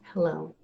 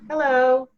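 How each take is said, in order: First: It is said without a smile. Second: It is said with a smile.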